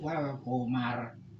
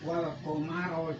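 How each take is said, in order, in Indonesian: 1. Kata ini berakhir mendadak pada konsonan r. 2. Kata ini diakhiri dengan vokal pendek setelah r. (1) "jangan di wal komar" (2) "harusnya itu wal komaro"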